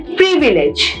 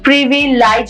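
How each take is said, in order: First: The word ends with a 'lidge' sound. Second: The word ends with a 'lize' sound. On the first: The speaker calls it right. "That will be प्रिविलेज" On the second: The speaker calls it wrong. "प्रिविलाइज नहीं बोलेंगे"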